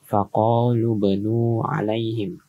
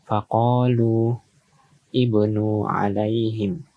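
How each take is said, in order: First: The words run together with no opening vowel. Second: A break, then the word starts with 'i'. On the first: "apabila disambung dan hamzah wasalnya tidak dibaca" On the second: "semisal kita putuskan di sini"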